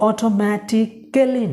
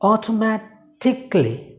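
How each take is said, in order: First: The ending is said fully as 'kally'. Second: The ending is reduced to a short 'klee'. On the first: The speaker calls it wrong. "অটোমেটিক্যালি না বা কালি না" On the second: The speaker calls it right. "It's অটোমেটিকলি"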